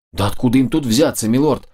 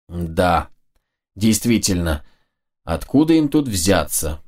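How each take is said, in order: First: Said in the usual way. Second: Откуда им тут взяться said slowly and low, turning it over; musing echo. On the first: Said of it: "Включилась в разговор Мия". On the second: A narrator's reading. The lord echoes Mia's words to make a point: slow, low, ironic musing. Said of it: "Подхватил я слова Мии".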